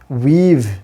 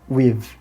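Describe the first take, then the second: First: The vowel is long and full. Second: The vowel is short and reduced. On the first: "in a strong form it would be pronounced" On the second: "In weak form it may be pronounced"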